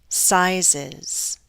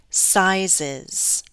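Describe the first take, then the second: No difference in how they are said.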